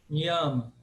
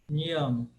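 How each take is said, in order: The two takes are said the same way.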